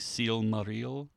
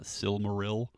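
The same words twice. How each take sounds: First: The word is said in an Elvish way. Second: The word is said in an English way. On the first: The speaker calls it right. "if you're pronouncing it in Elvish fashion" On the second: The speaker calls it wrong. "like lazy English Americans"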